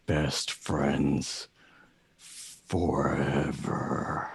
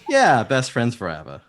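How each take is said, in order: First: Low, very slow, ominous raven pledge; deep, drawn-out bird vow; Agfa. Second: High, loud, eager agreement; excited high-pitched best-friend pledge; Valka. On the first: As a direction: drag each word out low for the close-up. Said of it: "the camera zooms in on him". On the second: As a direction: agree loudly and high, full of devotion. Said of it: "He goes". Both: Acted.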